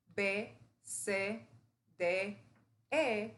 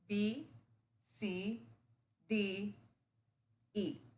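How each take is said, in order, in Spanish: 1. Cada nombre de letra termina en la vocal 'eh'. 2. Cada nombre de letra termina en la vocal 'ee'. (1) "en vez de B, C, D, E, que tenemos en español" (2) "todo va a terminar en sonido I"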